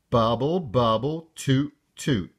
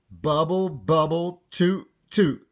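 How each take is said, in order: First: Said in the usual way. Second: Higher little-frog echo, lightly spluttered; spluttering. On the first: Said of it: "Repeat after me". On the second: A narrator's reading. Froggy repeating after his mother, high light splutter. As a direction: parrot it back in a high kid voice. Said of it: "spluttered Froggy".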